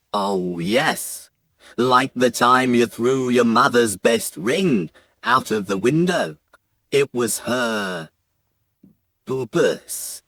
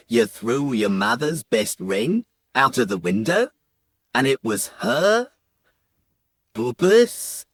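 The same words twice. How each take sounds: First: Lightly voiced dad, lower and measured; a hint of a grave father, pausing before the last word; dad recalling misdeed. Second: Questioning accusation, each phrase lifting at the end; lightly voiced accusers, pausing before the last word; accusing crowd of bubas. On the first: Dad reminding his son of the ring, grave telling. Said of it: "So my dad says". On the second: Grandmothers crowding round the boy, accusing question. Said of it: "crowding round me going".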